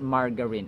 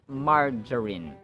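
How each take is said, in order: First: The g is a hard g sound. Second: The g sounds like a j. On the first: The speaker calls it wrong. "It's not margarine" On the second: The speaker calls it right. "So the G is pronounced as in J"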